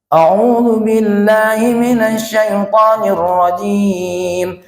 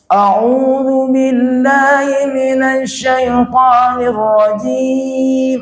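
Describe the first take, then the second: First: It is recited at a moderate pace. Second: It is recited very slowly and drawn out. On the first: "Tadwir sedang. Cepat nian nida, lambat nian nida" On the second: "Itu namanya tahqiq"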